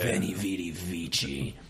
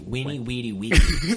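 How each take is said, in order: First: The V's sound like V, the final C like CH. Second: The V's sound like W, the final C like K. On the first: This sounds Italian and cool. "sounds not only Italian as fuck" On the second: This is how it was said in ancient times. "the V's would have been pronounced like W's"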